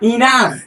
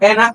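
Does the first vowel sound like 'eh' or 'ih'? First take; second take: ih; eh. First: The first vowel sounds like 'ih'. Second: The first vowel sounds like 'eh'. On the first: The speaker calls it right. "এই শব্দটি সঠিক উচ্চারণ হলো ইনাফ" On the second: The speaker calls it wrong. "এনাফ বললে এটা ভুল উচ্চারণ হয়ে যাবে"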